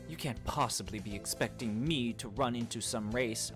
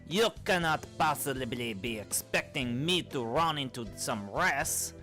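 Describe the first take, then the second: First: It is said in the speaker's plain accent. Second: It is said in a fake French accent.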